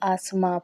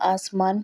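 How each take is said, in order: First: The word ends with a nasalized vowel. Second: The word ends with a full n sound.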